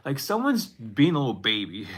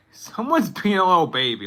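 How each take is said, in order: First: Said in the usual way. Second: Laughing it out, louder and higher; giggling mock teasing. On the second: Real, not acted. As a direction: crack up while repeating it. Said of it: "I don't know why I said it like that".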